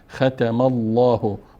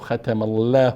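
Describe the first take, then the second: First: The L in Allah sounds full and heavy. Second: The L in Allah sounds thin and light. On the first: The speaker calls it right. "پر میخوانیم" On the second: The speaker calls it wrong. "ختم الله نی"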